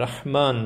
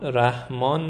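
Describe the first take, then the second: First: The h sound is made deep in the throat. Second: The h sound is soft and breathy. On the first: The speaker calls it right. "رحمان دارد" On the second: The speaker calls it wrong. "رحمان ندارد"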